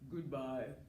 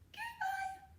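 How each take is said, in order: First: It is said in a very low voice. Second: It is said in a very high voice.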